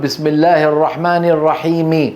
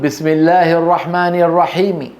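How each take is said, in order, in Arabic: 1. تُنطق الحركة الأخيرة كاملة وواضحة. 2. الحركة الأخيرة مختزلة ويُقال بصوت خافت.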